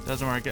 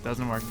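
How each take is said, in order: Both takes have the same delivery.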